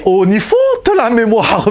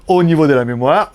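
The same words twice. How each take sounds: First: Hammed-up German accent, loud. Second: Said in the usual way. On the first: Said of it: "je fais super bien l'accent allemand".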